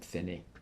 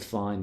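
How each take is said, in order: First: It is said with Italian vowels, two syllables. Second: It is said like the English word fine. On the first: "actually technically in Italian" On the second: "I say fine"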